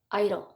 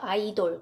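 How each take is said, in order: First: The stress falls on the first syllable. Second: The stress falls on the last syllable. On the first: The speaker calls it right. "앞쪽에 강세가 와요" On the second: The speaker calls it wrong. "아이돌이 아니고 돌에 절대 강세가 가지 않아요"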